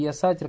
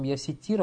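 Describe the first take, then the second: First: The first syllable has an 'a' vowel. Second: The first syllable has an 'i' vowel. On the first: The speaker calls it wrong. "оно правильно не сатир, а ситир будет" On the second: The speaker calls it right. "оно правильно ситир надо говорить"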